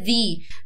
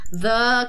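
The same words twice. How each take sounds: First: The vowel is a long 'ee' sound. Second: The vowel is a short 'uh' sound. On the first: It comes before a word starting with a vowel. "Quando o the estiver na frente de uma palavra que começa com vogal, aí a gente pronuncia the" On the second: It comes before a word starting with a consonant. "Quando a palavrinha começar com consoante, aí a gente pronuncia the"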